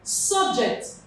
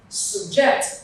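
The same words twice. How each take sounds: First: The stress is on the first syllable. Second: The stress is on the second syllable. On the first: It is a noun. "the stress falls on the first syllable here" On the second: It is a verb. "the stress falls on the second syllable here"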